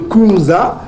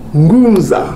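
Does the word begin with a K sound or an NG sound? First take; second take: K; NG. First: The word begins with a plain K sound. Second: The word begins with a nasal NG sound. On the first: The speaker calls it wrong. "Au lieu de Kunza" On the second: The speaker calls it right. "puisque le K a le son du, du G"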